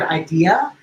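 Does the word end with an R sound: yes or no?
no. The word ends without any R sound. "which is the word idea"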